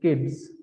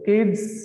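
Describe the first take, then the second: First: The word ends with a buzzing z sound. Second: The word ends with a hissing s sound. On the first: The speaker calls it right. "it should be kids" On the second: The speaker calls it wrong. "So kids is wrong"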